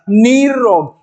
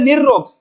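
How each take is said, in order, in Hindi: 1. पहला स्वर दीर्घ है, उसके बाद एकल र। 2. पहला स्वर ह्रस्व है, उसके बाद दोहरा र। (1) "अगर आप प्रारंभिक मात्रा दीर्घ करोगे तो भी र की साउंड आ जाएगा" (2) "अगर हम इसको बोलते हैं निर्रोग"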